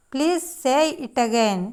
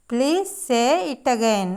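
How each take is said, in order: Both takes have the same delivery.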